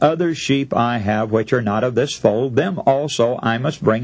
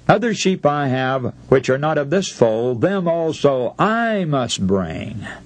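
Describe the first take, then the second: First: It is read without special emphasis on I. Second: The word I is strongly emphasized.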